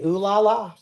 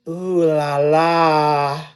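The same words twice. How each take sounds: First: It is said in a plain, ordinary voice. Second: It is said with exaggerated, dramatic energy.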